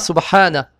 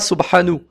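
First: The word ends in an a vowel. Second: The word ends in a u vowel. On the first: The speaker calls it right. "On dira Subhana" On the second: The speaker calls it wrong. "On ne dira pas Subhanu"

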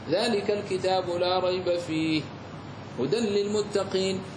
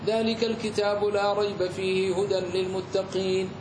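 First: There is a pause after fih only. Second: There is no pause in the whole phrase. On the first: "وجاز لك أن تقف على الثاني" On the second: "ولم تقف على أي أحد منهما"

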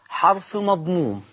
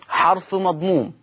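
No difference in how they are said.

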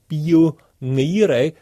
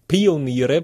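First: The initial P is soft and weak. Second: The initial P is hard and strong. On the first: This is the word the listener misheard. The speaker calls it wrong. "ich habe nicht gesagt Pioniere" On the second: This is the word that was actually meant. The speaker calls it right. "sondern mit harten P"

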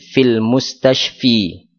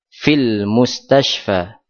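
First: The final vowel of mustashfa is i. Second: The final vowel of mustashfa is a. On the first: The speaker calls it wrong. "Tidak dibaca" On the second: The speaker calls it right. "tidak ada perubahan harokat"

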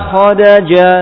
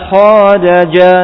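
No difference in how they are said.

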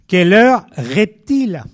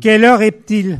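First: It is spoken slowly, drawn out. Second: It is spoken at a normal pace.

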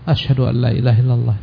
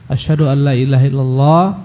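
First: The phrase is said softly. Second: The phrase is said loudly. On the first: "dia ulangi dengan suara yang perlahan" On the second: "dengan keras"

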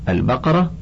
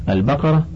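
The two takes are said the same way.

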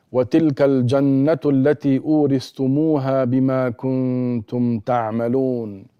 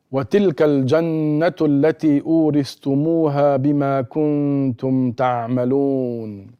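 Both takes have the same delivery.

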